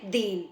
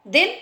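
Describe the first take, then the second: First: "दीन" with a longer ee; long ee in "दीन", set against a short one. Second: "दिन" with a quick short i; short vowel in "दिन", set against a long one. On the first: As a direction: lengthen the vowel in "दीन". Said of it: "तो बड़ी आवाज़". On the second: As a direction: keep "दिन" brief. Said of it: "दिन मतलब छोटी". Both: Shown as a demonstration.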